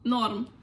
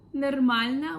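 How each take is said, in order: First: The word is cut to one syllable. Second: The word is said with all three syllables.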